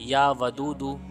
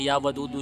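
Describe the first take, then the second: First: It is followed by a pause for breath. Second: It runs into the repetitions without a breath. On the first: The words are pronounced properly. The speaker calls it right. "फिर साँस ले लेना है" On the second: The recitation will have no effect. The speaker calls it wrong. "अगर आप एक साँस में पढ़ेंगे"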